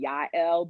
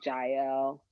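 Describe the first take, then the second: First: The name is said the Hebrew way. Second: The name is said the English way. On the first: This is how the original language says it. "in the Hebrew it might be Yael" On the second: This is how English speakers usually say it. "we would say Jael"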